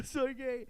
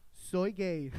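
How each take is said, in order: First: Imitating a weepy teen, higher pitch; mock tearful confession. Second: Said in the usual way. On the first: Teen texting mother from bedroom, mock tearful. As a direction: whimper it lightly, as a retold confession. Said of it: "estoy llorando en mi cuarto". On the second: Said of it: "le digo".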